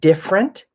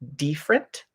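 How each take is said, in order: First: The first vowel is a short i sound. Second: The first vowel is a long ee sound. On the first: The speaker calls it right. "or different" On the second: The speaker calls it wrong. "instead of different"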